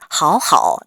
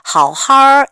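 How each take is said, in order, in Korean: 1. 두 번째 음절은 원래 3성을 그대로 유지합니다. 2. 두 번째 음절은 높은 평평한 1성으로 바뀝니다.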